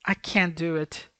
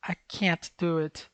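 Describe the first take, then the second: First: "can" with a clear final n, no t; affirmative "can" demo. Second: "can't" cut short by a stopped t; slow, stop "can't" on the t before "do"; negative "can't" demo. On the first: Teacher showing students the positive, "can" ending on n. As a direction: say "can" slowly, running the n into "do". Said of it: "muda o tom e muda esse can't". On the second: Teacher showing students the negation, "can't" stopped short. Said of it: "Eu tô negando". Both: Shown as a demonstration.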